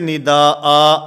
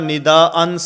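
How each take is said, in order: First: The word ends with a long a. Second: The word ends with an n sound. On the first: The reader stops on this word. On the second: The reading continues without a stop.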